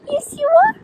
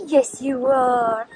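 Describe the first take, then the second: First: Very high squeaky coo. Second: Drawn-out gentle reassurance; slow soft coo. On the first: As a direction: squeal it to the puppy. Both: Real, not acted. Cooing to her dog.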